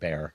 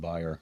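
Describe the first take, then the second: First: The name is said in an American way. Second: The name is said in a German way.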